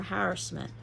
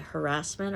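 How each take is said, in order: First: Harassment stressed on HAR, HAR-assment; stress on first syllable. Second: Harassment stressed on RASS, ha-RASS-ment; stress on second syllable. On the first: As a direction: put the accent at the front of harassment. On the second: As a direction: put the accent on the middle of harassment. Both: Shown as a demonstration. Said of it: "where you're putting the accent".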